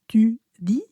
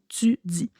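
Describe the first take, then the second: First: The t and d are clean, without hiss. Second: The t and d are followed by a hiss. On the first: The speaker calls it wrong. "on ne dit pas tu dis" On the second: The speaker calls it right. "on dit tu dis. Donc, c'est vraiment de la frication"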